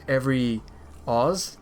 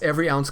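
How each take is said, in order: First: The second word is said as 'oz'. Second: The second word is said as 'ounce'. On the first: The speaker calls it wrong. "A lot of people pronounce it as Every Oz" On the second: The speaker calls it right. "it's not Oz, it's Ounce"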